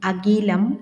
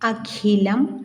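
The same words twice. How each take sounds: First: The middle consonant is a plain k. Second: The middle consonant is an aspirated kh. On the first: The speaker calls it wrong. "തെറ്റായി ഉച്ചരിക്കുന്നതൊന്ന്" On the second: The speaker calls it right. "ശരിയായി ഉച്ചരിക്കുന്നതിന്"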